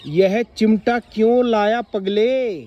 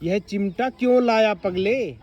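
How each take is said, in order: First: Slow, loud surprised question on क्यों; a grandmother amazed at the tongs. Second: Mild wonder, drawn out; surprised. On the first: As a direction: ask in astonishment, stretching it out. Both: Shown as a demonstration. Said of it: "हैरानी से ये बात बोली गई है".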